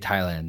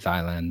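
First: It begins with a plain t sound. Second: It begins with a th sound. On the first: The speaker calls it right. "they would say Thailand" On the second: The speaker calls it wrong. "They would never say Thailand. That's 100% wrong"

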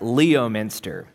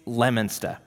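First: The name is pronounced as it is spelled. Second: The name is pronounced the local way. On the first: The speaker is not from the area. The speaker calls it wrong. "what looks like Leominster" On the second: The speaker is from the area. The speaker calls it right. "It's Leominster"

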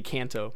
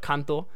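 First: The name is said with an American accent. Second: The name is said with a Japanese accent.

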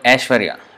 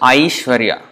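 First: The first vowel is one steady vowel sound. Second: The first vowel glides from one vowel to another. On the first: The speaker calls it wrong. "Sometimes in Hindi, they may pronounce it Aishwarya, A" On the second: The speaker calls it right. "In Sanskrit, it's Aishwarya, I"

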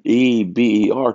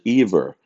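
First: The middle consonant is a B sound. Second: The middle consonant is a V sound. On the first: "EB as in basketball" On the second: "which is the B with a V sound"

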